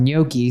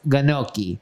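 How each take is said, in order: First: Said in the usual way. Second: "gnocchi" with a hard G, guh-NOK-ee; mispronounced gnocchi. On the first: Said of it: "She also corrected someone's pronunciation". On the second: Retold or imitated. Quoting her bad correction, "gnocchi" with a sounded G. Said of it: "saying it was pronounced".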